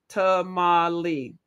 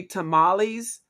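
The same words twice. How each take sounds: First: "Tamale" slowly in three beats, ta-ma-le; syllable by syllable. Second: Said in the usual way. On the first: Shown as a demonstration. Host proving the word has three syllables, "Tamale" syllable by syllable. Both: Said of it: "tamales are three syllables".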